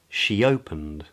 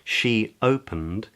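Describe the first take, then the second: First: A y sound joins the two words. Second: No y sound joins the two words.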